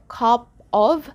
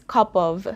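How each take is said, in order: First: Both words are said fully and separately. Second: The two words are reduced and run together.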